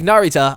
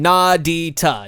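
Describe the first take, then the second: First: The middle consonant is an American English R. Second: The middle consonant sounds like a D. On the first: "I just sound like such such an American" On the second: "it sounds like a D"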